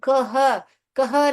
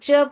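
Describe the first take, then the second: First: Two separate sounds, k then h. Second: One single blended ch sound. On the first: The speaker calls it wrong. "हम कह कह नहीं पढ़ते" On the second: The speaker calls it right. "इसको हम च पढ़ते हैं"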